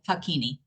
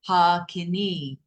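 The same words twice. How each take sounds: First: The first and last vowels are short. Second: The first and last vowels are long. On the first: The speaker calls it wrong. "So I say Hakini mudra" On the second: The speaker calls it right. "those two lines require the vowel to be double the length of the sound"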